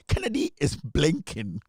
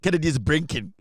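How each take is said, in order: First: The word is said with an l sound. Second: The word is said with an r sound. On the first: The speaker calls it right. "B L I N K" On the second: The speaker calls it wrong. "Kennedy is not brinking"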